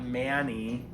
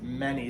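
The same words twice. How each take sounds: First: The first vowel is a long 'ay' sound. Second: The first vowel is a short schwa-like sound. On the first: The speaker calls it wrong. "The A does not make its A sound. It's not many" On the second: The speaker calls it right. "It's many, so that's a schwa"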